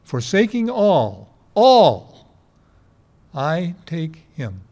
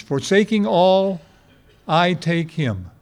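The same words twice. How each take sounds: First: Slow emphatic acronym recital; slow, stressed ALL. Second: Slow spelled-out phrase. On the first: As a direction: lean on the second all. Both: Shown as a demonstration. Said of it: "Faith is an acronym".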